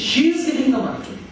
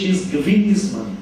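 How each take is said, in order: First: The stress falls on the word she. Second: The stress falls on the word giving. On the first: She is the one giving it, not someone else. "যদি শি এর উপর জোর দিই" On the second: The money is a gift, not a loan. "যদি giving এর উপর জোর দিই"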